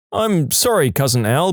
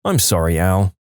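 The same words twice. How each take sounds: First: Higher, eager fix with cousin stressed; quickly correcting to I'm sorry, cousin Al; corrected apology. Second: Said in the usual way. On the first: Acted. Tom eagerly correcting himself to cousin Al, apologetic. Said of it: "We're cousins". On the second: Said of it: "What's this Al business?".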